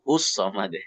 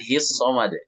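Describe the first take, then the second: First: The syllable before samad has a 'u' vowel. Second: The syllable before samad has an 'i' vowel. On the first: The speaker calls it right. "tetap hu" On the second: The speaker calls it wrong. "Bukan his samad"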